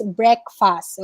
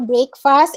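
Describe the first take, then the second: First: Breakfast as BREK-fust, slow and falling; correct breakfast. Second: Breakfast as BRAKE-fast, rising; wrong breakfast. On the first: Teacher drilling the right breakfast. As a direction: say breakfast slowly. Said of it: "it's breakfast". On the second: Teacher repeating the wrong breakfast. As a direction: model the mistake. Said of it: "It's not breakfast". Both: Shown as a demonstration.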